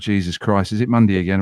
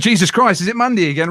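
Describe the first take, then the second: First: It is said in a sleepy, grumpy way. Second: It is said in an enthusiastic, happy way. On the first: The speaker has just got out of bed. "if I've just rolled out of bed" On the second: The speaker is upbeat for the show. "I might sound enthusiastic and happy"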